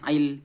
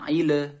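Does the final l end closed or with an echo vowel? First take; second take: closed; echo vowel. First: The l ends cleanly with no added vowel. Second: The l is bounced with an added echo vowel. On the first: The speaker calls it right. "bukan ile tapi min ilmin seperti itu" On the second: The speaker calls it wrong. "itu dipantulkan. Maka itu tidak boleh"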